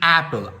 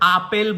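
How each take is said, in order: First: The first vowel is the 'a' of 'cat'. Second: The first vowel is an open 'ah' sound. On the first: The speaker calls it right. "The অ্যাপল" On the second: The speaker calls it wrong. "আপেল বলি না কিন্তু আমরা"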